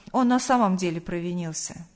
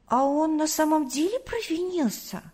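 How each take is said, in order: First: Sober statement, settling downward; honest fatherly answer. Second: Put-on surprised child. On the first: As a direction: confirm it plainly to a child, hiding nothing. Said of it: "ответил отец, не скрывая правды". (честный, сдержанный ответ отца) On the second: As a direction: wonder aloud in a high little-boy voice. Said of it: "удивился Тимофей". (удивлённый детский вопрос, высоким голосом) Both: A narrator's reading.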